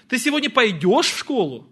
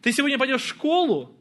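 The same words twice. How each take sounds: First: The stress falls on the word пойдешь. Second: The stress falls on the word школу. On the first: Asks whether you will go or not, or ride. "Пойдешь или не пойдешь?" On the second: Asks whether the destination is school or somewhere else. "В школу или на каток"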